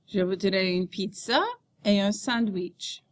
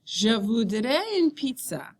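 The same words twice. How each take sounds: First: "pizza" goes up before the pause, "sandwich" comes down; rising mid-sentence intonation. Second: Slow model sentence, falling at the end on "pizza"; falling statement intonation. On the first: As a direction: voice rises on "pizza", then falls on "sandwich". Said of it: "your voice rises after each group of words". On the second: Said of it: "your voice goes down at the end of a statement". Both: Shown as a demonstration.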